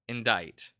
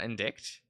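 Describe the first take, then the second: First: The word sounds like in-dite, no k sound. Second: The word sounds like in-dikt, with a k sound. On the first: The speaker calls it right. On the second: The speaker calls it wrong. "Not indict. Why is there a T? like an I C T"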